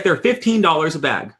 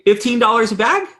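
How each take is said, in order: First: Said in the usual way. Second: High rising, disbelieving question; much higher echo rising on bag; incredulous question. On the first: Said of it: "He's like". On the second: Retold or imitated. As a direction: repeat the price to the father in shock. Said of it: "And I say".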